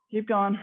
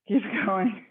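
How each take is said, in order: First: Said in the usual way. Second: Laughing through the words; breaking into a laugh mid-cue. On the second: Real, not acted.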